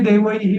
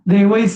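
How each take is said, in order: First: The word ends with an added 'hi' syllable. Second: The word ends in a hiss joining the next s. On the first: The text being read is prose. "इथे म्हणताना मी सर्वैही देवैही मरुद्गणैही असं म्हणतो" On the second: The text being read is verse. "पण ते पद्यात आलं की हा देवैः सर्वैः स- असं म्हणतो"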